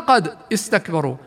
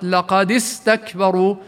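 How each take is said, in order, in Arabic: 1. لا توجد حركة بعد الدال. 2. تتبع الدال حركة قصيرة. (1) "كانت أصلا" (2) "تحركت الدال الساكنة"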